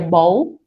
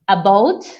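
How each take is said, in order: First: The first vowel and the final t are dropped. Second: The whole word is pronounced with all its sounds. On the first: "or you may just hear bow" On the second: "instead of saying about"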